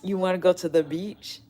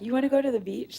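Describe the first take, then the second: First: The question is asked in a calm, subdued way. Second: The question is asked in an excited, upbeat way. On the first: "he didn't sound like he wasn't like" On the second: "Like he was super excited"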